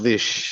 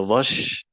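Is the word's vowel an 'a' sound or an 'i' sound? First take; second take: i sound; a sound. First: The word is said with an 'i' vowel. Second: The word is said with an 'a' vowel. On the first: "yang sering dengar yang dengan kasrah dhish" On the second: "ada yang fathah"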